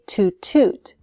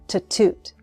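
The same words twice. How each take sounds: First: The word 'to' has a full long vowel. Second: The word 'to' has a short reduced vowel. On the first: The speaker calls it wrong. "I don't say to toot with two long oo sounds" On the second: The speaker calls it right. "the vowel sound is reduced. It sounds like t"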